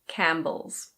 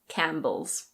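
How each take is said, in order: First: The P sound is silent. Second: The P sound is silent.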